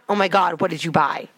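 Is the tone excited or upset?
upset. It sounds upset and annoyed.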